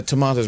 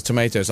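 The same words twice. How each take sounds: First: "tomatoes" with an ah in the middle; British tomatoes. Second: "tomatoes" with an ay in the middle; American tomatoes. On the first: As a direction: say "tomatoes" as to-MAH-toes. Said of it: "there's one that kind of". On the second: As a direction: say "tomatoes" as to-MAY-toes. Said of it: "which is tomatoes". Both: Shown as a demonstration.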